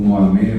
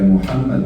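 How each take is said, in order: First: The name begins with a 'mo' sound. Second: The name begins with a 'mu' sound. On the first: This is the form commonly used here. The speaker calls it wrong. "também aqui usa a pronúncia como Mohammed" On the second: This is the original form of the name. The speaker calls it right. "mas a pronúncia correta é Muhammad"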